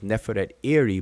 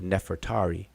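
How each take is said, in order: First: The name is said as two separate parts. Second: The name is said as one joined word. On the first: This is a reading of the original written name. "her name is Neferet Iri" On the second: This is how people commonly say the name. "people pronounce it Nefertari"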